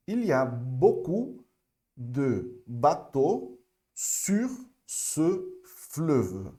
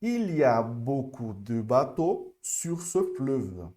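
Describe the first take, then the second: First: Very slow French demo. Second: Il y a beaucoup read slowly but smoother; more fluent French. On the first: Teacher asking students to repeat along, very slow. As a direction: stretch each word out very slowly. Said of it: "acompanha aqui comigo". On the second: Teacher repeating with students more fluently. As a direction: join it up a bit more. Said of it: "de uma forma mais avançada". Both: Shown as a demonstration.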